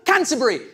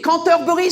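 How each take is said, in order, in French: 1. Il est prononcé avec un accent anglais natif. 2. Il est prononcé avec un accent français. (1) "c'est mon vrai accent" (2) "sans ton petit accent prétentieux"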